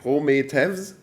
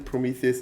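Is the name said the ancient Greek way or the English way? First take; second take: ancient Greek; English. First: The name is said with reconstructed ancient Greek sounds. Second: The name is said with ordinary English sounds.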